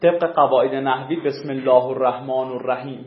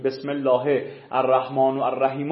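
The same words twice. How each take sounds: First: بسم الله الرحمن الرحیم with alternative case endings; teacher shows a variant allowed by grammar; grammatical variant. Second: بسم الله الرحمن الرحیم with doubled lams and ra held; teacher contrasts it with the grammar variant; standard recitation. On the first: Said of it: "صد هزار وجه ترکیب جایزه". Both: Shown as a demonstration.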